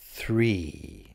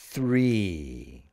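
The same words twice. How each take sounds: First: It begins with a th sound. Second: The same.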